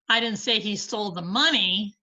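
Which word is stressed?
money. The stress falls on the word money. He took something other than the money. "but he stole something"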